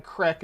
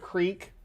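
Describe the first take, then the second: First: "crick" with a short i, as in brick; dialect pronunciation. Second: Said in the usual way. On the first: Shown as a demonstration. Streamer showing their natural accent, dialect pronunciation. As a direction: say "crick" for creek, short vowel. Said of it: "things like crick instead of creek". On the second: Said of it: "crick instead of creek".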